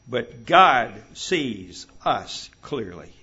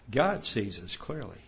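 First: "God sees us clearly" slowly, each word set apart, GOD loud; emphatic, spaced words. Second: Said in the usual way. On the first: Real, not acted. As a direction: hit "God" hard, then give "sees", "us", "clearly" one beat each. Key point hammered, then restated.

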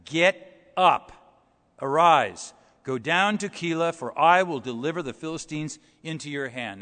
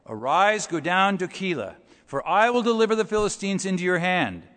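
First: "Get up" and "arise" barked out loud as a command; emphatic command. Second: "Arise" read firmly, close to the usual preaching voice; a firm but ordinary reading of "go down to Keilah"; emphatic reading. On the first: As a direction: hammer "Get up, arise" hard like God ordering. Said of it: "God says in the emphatic". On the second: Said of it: "It's in the emphatic". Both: Shown as a demonstration.

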